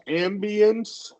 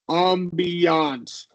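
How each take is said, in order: First: The word is said in the ordinary, plain way. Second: The word is said in a fancier way. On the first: "You can say a magical ambience" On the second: "or you can go with like the fancier ambiance"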